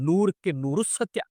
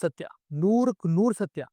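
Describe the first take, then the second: First: ನೂರಕ್ಕೆ lifted, rising tune, slow and sing-song; playful slogan recital; quoting an auto slogan. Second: ನೂರಕ್ಕೆ stressed, falling, slow and weighty; a mock-grand proclamation of the truth; slow emphatic declaration. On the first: Retold or imitated. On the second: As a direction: pronounce it like a solemn verdict. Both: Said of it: "ಈ auto ಹಿಂದೆ ಬರ್ದಿರ್ತಾರಲ್ಲ".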